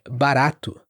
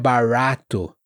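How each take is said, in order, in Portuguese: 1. O R é um toque rápido e forte. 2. O R é suave e enrolado. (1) "de forma forte" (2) "não é barato"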